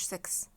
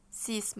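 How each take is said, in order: First: "سكس" with short vowel and KS ending; English "six". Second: "سيس" with a long "ee" and final S; correct French "six". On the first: Teacher shows students the wrong, English "سكس". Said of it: "سكس ده في الإنجليزي". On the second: Teacher corrects students on number six, French "سيس". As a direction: say "سيس" as "sees", no K sound. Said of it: "ما اسموش سكس". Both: Shown as a demonstration.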